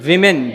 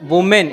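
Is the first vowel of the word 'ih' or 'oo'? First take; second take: ih; oo. First: The first vowel sounds like 'ih'. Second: The first vowel sounds like 'oo'. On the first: The speaker calls it right. "It's विमेन, वी pronounce it like वी" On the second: The speaker calls it wrong. "It's not वुमेन"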